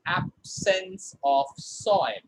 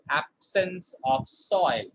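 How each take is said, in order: First: Slow and deliberate, absence of soil; slow model reading. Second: Slow repeat of absence of soil; repeat for the class. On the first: Teacher reading a model sentence slowly to the class. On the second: Teacher repeating the phrase slowly for the class. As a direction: say it again slowly, falling on soil. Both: Shown as a demonstration.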